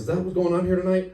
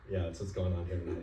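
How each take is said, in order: First: Higher, pushy disbelieving question; incredulous cop. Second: Lower, softer sheepish repeat; meek echo. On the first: Cop confronting half-naked driver, incredulous and loud. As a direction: demand an answer, baffled. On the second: Caught driver echoing the cop, meek and soft. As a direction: mumble it back, defeated. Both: Retold or imitated.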